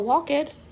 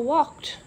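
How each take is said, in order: First: The ending is a separate 'ed' syllable. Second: The ending is a short 't' sound. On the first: The speaker calls it wrong. "We wouldn't say" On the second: The speaker calls it right. "ED sometimes can sound like a T"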